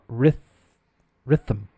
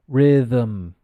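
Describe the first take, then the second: First: The th sound is voiceless, only air. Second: The th sound is voiced, vocal cords vibrating. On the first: The speaker calls it wrong. "it's not ryth rhythm" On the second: The speaker calls it right. "The th is pronounced. It's vocalized"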